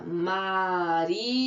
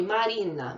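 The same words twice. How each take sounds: First: Marina drawn out slowly as Ma-ri-na; syllable by syllable. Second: Said in the usual way. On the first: Shown as a demonstration. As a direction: stretch each syllable of Marina for counting. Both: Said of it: "Quantas vezes?".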